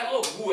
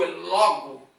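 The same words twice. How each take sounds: First: "logu" ending on an u sound; wrong pronunciation. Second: "logo" ending on a plain o; correct pronunciation. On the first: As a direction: say "logu" with the final vowel as u. (pronúncia errada "logu", final em u) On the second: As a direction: say "logo" with a clear final o, not u. (pronúncia correta "logo", final em o) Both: Shown as a demonstration. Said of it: "quando você vai falar na pronúncia".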